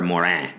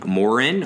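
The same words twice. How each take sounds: First: The name is said with French pronunciation. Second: The name is said with English pronunciation.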